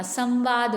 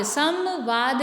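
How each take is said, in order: First: संवाद with a light nasal before व; nasal bindi. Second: संवाद said as "sam-vaad" with full m; separate म. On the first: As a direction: glide from सं into वाद in संवाद. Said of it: "अम की बिंदी आएगी". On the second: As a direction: close the lips on म in संवाद. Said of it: "तो म नहीं आएगा". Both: Shown as a demonstration.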